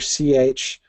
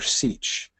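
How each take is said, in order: First: The word is said with two syllables. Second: The word is said with one syllable. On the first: "Two syllables or one?" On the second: "Two syllables or one?"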